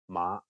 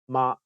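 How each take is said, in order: First: It carries the tone of the word horse. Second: It carries the tone of the word mother. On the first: The word means horse. "horse is ma" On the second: The word means mother. "mother is ma"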